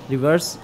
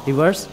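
The two takes are said the same way.

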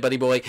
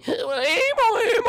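First: Said in the usual way. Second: Put-on very high, slow crooned buddy boy; sung, a long high drawn-out Buddy boy teasing a rival player; sung, sing-song taunt. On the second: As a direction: sing it out to tease him.

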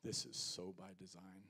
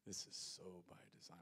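First: Said in the usual way. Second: Much softer, lower repeat of This is so by design; a quiet inner thought of Jesus; hushed echo. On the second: Retold or imitated. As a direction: let it sink in almost to yourself. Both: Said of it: "here's what Jesus is thinking".

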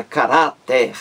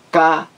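First: Said in the usual way. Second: "Caráter" em três sílabas, cá, rá, ter, com pausas longas; separação silábica. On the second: Shown as a demonstration. ("Caráter" escandido devagar) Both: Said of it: "três sílabas".

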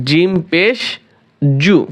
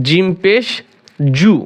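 Both takes have the same delivery.

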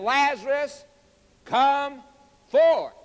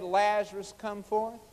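First: High, emphatic call, loud on the final word; commanding call. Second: Said in the usual way. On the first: Retold or imitated. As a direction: summon with force, word by word. Emphatic re-enactment of Jesus calling.

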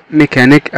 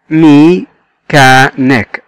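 First: Said in the usual way. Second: "ميكانيك" slowly as me, cha, nic; three separated beats on "ميكانيك"; split into syllables. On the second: Shown as a demonstration. Teacher showing three syllables, "ميكانيك" broken apart. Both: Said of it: "متكونة من تلات مقاطع صوتية".

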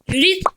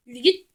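First: "Yürü git" shouted high and louder; yelled urging. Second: Said in the usual way. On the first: Real, not acted. Gamer urging his character on, high and loud.

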